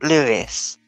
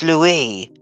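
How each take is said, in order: First: The name is said like English Lewis. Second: The name is said the French way, Loo-ee. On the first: The speaker calls it wrong. "But it's not Louis" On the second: The speaker calls it right. "It's Louis. Like the French one"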